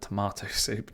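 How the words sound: It is said with a British pronunciation. The speaker calls it right. "we call it tomato soup"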